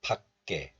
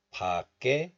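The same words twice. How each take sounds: First: 밖에 as 박 then 깨, k held; stopped first syllable. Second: 밖에 as open 바 then tense 깨; linked pronunciation. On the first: Teacher showing the second option, 밖에 said 박-깨. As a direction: stop on 박 in 밖에 before releasing 깨. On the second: Teacher showing the first option, 밖에 said 바-깨. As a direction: link 밖에 into 바-깨. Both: Shown as a demonstration. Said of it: "Both are fine".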